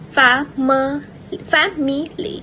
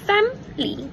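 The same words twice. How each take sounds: First: All three syllables are pronounced, including the middle vowel. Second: The middle vowel is dropped, giving two syllables. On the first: This is the standard form. "Its standard pronunciation is family" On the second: This is the casual connected-speech form. "dropping the E sound"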